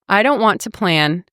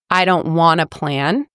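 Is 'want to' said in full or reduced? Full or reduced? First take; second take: full; reduced. First: Both words 'want to' are said separately. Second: 'Want to' is blended into 'wanna'.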